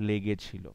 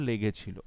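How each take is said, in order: The two takes are said the same way.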